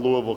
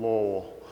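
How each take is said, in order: First: "Louisville" said in full as three syllables, LOO-ee-vil; outsider pronunciation. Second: "Lowell" swallowed into two quick syllables, LOH-ul; local pronunciation. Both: Shown as a demonstration. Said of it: "you say Lowell".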